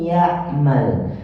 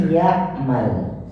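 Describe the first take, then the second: The two takes are said the same way.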